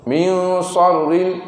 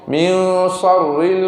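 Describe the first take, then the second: Both takes have the same delivery.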